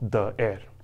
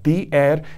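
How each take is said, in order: First: The word the is said with a short uh. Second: The word the is said with a long ee. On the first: The speaker calls it wrong. "and not the air" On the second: The speaker calls it right. "the correct usage as the air"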